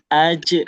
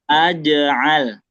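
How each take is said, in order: First: The j sound stops dead with no bounce. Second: The j sound ends with a short bouncing echo. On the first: The speaker calls it wrong. "Jangan aj" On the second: The speaker calls it right. "Jadi mantulnya seperti itu"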